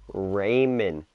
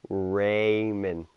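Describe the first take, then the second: First: The name is said with a clear 'ray' and 'mond'. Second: The name is said with a clear 'ray' and 'mond'.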